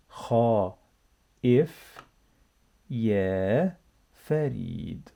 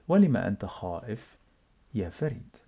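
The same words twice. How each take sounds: First: Drawn out and careful; slow reading. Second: Quick and run together; fast natural speed. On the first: Teacher reading with the class, slow and careful. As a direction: stretch each word for learners to copy. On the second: Teacher to learners, fast native-speed reading. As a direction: say it at real conversational speed. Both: Shown as a demonstration. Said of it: "let's read together".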